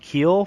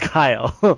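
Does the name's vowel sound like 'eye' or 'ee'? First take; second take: ee; eye. First: The vowel sounds like 'ee', as in feel. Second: The vowel sounds like 'eye', as in file. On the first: The speaker calls it wrong. "we've been pronouncing your last name Keel for the forever" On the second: The speaker calls it right. "we didn't know it was Kyle"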